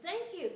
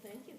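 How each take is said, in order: First: Louder, higher, demanding thank you; fairy repeating her thanks at the silent doll, impatient; insistent repeat. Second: Said in the usual way. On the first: A narrator's reading. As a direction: stress "Thank you" hard and high, pressing for an answer.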